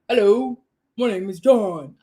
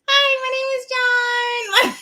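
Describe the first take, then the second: First: It is said in a put-on masculine voice. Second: It is said in a girlish voice.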